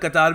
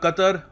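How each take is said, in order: First: The second vowel is drawn out long. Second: The second vowel is short and clipped. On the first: Some people pronounce it this way. "कतार भी pronounce करते हैं इसको" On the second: This is the form the speaker will use. "मैं कतर बोलूंगा"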